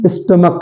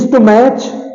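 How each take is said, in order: First: The h is silent at the end. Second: The h is sounded at the end. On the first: The speaker calls it right. "एच बिल्कुल silent है" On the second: The speaker calls it wrong. "स्टोमैच नहीं है"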